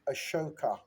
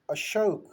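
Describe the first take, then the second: First: The name ends with an added 'a' vowel. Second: The name ends in a consonant sound. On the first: This is how the British said it. The speaker calls it wrong. "but they pronounce it" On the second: This is the original native form. The speaker calls it right. "our name is uh"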